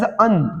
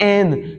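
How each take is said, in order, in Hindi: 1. Article को छोटे 'uh' स्वर से बोला जाता है। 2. आर्टिकल को पूरे खुले स्वर से बोला जाता है। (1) "एन is pronounced as अन" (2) "not एन"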